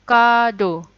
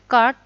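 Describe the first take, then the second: First: It is said the Japanese way, two syllables. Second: It is said the English way, one syllable. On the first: "Card jadinya kado" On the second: "kosakata asing bahasa Inggris"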